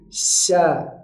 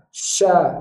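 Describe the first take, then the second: First: The lips stay back, only the tongue rises. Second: The lips are pushed forward for the sound. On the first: The speaker calls it right. "tapi sya" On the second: The speaker calls it wrong. "bukan dengan memajukan bibir"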